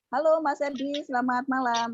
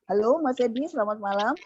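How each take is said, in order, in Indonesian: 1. Diucapkan dengan suara biasa yang lebih ringan. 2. Diucapkan dengan suara berat dari perut. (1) "saya ngomong begini ya" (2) "yang terakhir itu adalah suara diafragma yang kita keluarkan dari perut"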